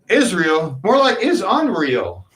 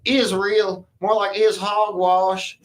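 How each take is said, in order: First: It is said in his normal voice. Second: It is said in a redneck voice.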